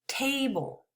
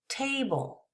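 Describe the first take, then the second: No difference in how they are said.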